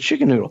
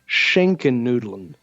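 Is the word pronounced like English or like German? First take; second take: English; German. First: It sounds like the English words chicken noodle. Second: It is said with a German sh sound and ending. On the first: The dish seems to contain chicken. The speaker calls it wrong. "I've heard this pronounced as chicken noodle" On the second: The dish contains ham. The speaker calls it right. "he pronounced it something along the lines of Schenkennudeln"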